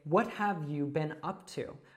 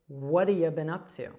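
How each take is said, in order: First: The words are said separately and fully. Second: The words are run together with reduced sounds.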